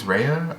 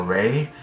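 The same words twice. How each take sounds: First: Raya said as RAY-uh, two syllables; pronunciation attempt. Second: Ray said as one syllable; alternative pronunciation. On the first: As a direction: say Raya with an added "uh" ending. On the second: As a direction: say Ray with no "uh" ending. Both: Shown as a demonstration. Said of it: "I think it's Raya or Ray".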